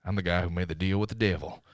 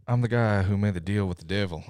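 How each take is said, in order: First: Lightly voiced Cage, brooding and gruff; a touch of growling menace; Nick Cage impression. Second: A lightly voiced Nicolas Cage, intense and gruff; a hint of movie-star menace; Nick Cage impression. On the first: Host repeating the Cage line in a light impression. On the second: Podcaster hamming up Nicolas Cage for the listeners, lightly voiced. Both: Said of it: "here's my best Nick Cage impression".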